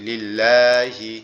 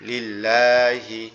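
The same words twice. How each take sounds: First: লিল্লাহি read slowly with a held double l; লিল্লাহি spoken slowly, each syllable clear; slow Arabic reading. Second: লিল্লাহি very slow with a clear doubled l; লিল্লাহি spoken slowly, the double l held; slow Arabic reading. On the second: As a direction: read লিল্লাহি out slowly for students. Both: Shown as a demonstration. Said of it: "এই লাম লাম জের আমরা যদি এইভাবে লিখি".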